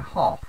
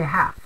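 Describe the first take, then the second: First: It is said with a British-style accent. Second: It is said with a general American accent. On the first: "many many people in the U K will say half" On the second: "I'm American ... I say half"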